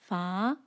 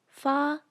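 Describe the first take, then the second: First: The pitch rises upward. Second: The pitch stays level throughout. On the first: "rises upwards like this" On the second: "maintains its pitch from start to finish"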